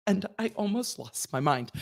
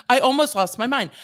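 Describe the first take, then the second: First: Said in the usual way. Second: Louder and higher, losing patience; exasperated outburst. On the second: Real, not acted. Venting to viewers about ticket fees, louder outburst. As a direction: blurt it out in exasperation.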